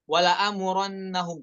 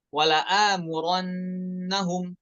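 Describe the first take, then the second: First: The held sound is cut short. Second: The held sound lasts two full beats. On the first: The speaker calls it wrong. "jangan dibaca pendek" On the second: The speaker calls it right. "semuanya dengan kadar dua harokat"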